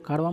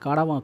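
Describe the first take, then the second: First: The middle vowel is dropped, giving two syllables. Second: The middle vowel is fully said, giving three syllables. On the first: The speaker calls it wrong. "आप इसको कारवां मत बोलिए" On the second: The speaker calls it right. "कारावां कहिए"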